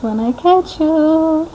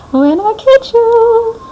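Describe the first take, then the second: First: Slow and higher taunt; high drawn threat. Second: Much higher, louder, very slow squeal; squeaky mock threat. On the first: Pretend. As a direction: stretch it out teasingly. First take of threat. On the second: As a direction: push the taunt up into a squeal. Second take climbs higher.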